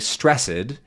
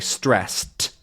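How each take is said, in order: First: The ending is a separate 'ed' syllable. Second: The ending is a plain T sound. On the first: The speaker calls it wrong. "We don't say stressed" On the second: The speaker calls it right. "we say stressed, which sort of sounds like a this is just becoming a T"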